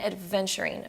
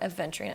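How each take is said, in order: First: A d sound comes before the v. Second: No d sound comes before the v. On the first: The speaker calls it wrong. "I always pronounce it with a D as if it's like adventure" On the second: The speaker calls it right. "but it's not that at all"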